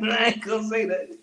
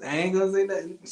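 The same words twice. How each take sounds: First: Laughing through the line. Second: Said in the usual way. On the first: Real, not acted. Teasing about the song, breaking into laughter. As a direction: crack up while saying it.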